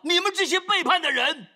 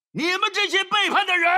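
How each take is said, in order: First: Moses's angry shout. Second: High, loud furious rebuke; Moses's angry shout. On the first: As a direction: yell it at the rebels. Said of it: "所以他喊道". (摩西大声斥责百姓，满怀怒气) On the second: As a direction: yell it at the rebels like Moses. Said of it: "他却是这么做". (摩西怒斥百姓，高声喊叫) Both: Retold or imitated.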